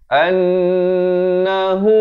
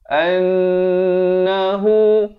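Both takes have the same delivery.

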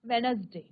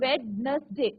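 First: No 'd' sound is pronounced before the 'n'. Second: A 'd' sound is pronounced before the 'n'. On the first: The speaker calls it right. "डी हा silent letter आहे, म्हणून आपण फक्त कसं बोलणार" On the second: The speaker calls it wrong. "आपण वेडनसडे असं नाही बोलायचं"

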